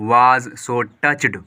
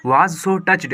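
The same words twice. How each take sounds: First: Very slow, drawn-out reading aloud; slow dictation pace. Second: Said in the usual way. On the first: Shown as a demonstration. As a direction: read it out word by word for the class.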